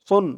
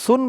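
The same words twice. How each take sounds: First: The s sound is heavy, with a full mouth. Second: The s sound is light and thin. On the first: The speaker calls it right. "মুখটা একটু ভরপুর হয়ে যাবে সদের উচ্চারণটা করার সময়" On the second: The speaker calls it wrong. "সুন বললে কিন্তু এখানে সিনের উচ্চারণ চলে আসবে"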